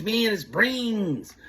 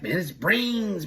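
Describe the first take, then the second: First: Even slower and higher, eerier; faking crazy. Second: Slow, eerie put-on voice; a slow, high, spooky put-on to fool the boss; faking crazy. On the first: Retold or imitated. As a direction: lean harder into the crazy act. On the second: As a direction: play crazy, drawing each word out. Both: Friend faking madness on line.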